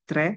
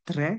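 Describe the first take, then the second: Both takes have the same delivery.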